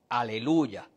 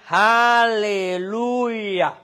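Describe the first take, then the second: First: The word has a plain Spanish pronunciation. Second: The word has a Hebrew pronunciation.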